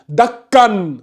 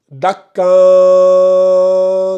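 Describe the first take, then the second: First: The final n is pronounced clearly. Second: The final n is hidden with nasalization. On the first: "on dit prononciation claire" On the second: "c'est la dissimulation ... en faisant le nasillement"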